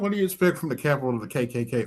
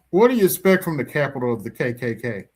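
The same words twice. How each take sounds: First: It is said at a normal, quieter volume. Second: It is said at a louder volume. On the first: "Oops, did I say that out loud?" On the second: "say it louder"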